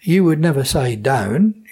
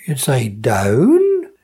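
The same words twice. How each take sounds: First: Said in the usual way. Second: "down" drawn out slowly with the W sounded, Suffolk style. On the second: Shown as a demonstration. Dialect speaker showing how Suffolk says down, slow.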